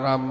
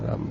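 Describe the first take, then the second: First: It is said fairly loudly. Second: It is said softly and gently.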